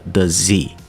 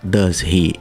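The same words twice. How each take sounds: First: The h is dropped, linking a z sound into 'he'. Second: The h of 'he' is clearly pronounced. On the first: "Ele corta o H do he, o som do does tem um Z no final" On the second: "ele não fala does he"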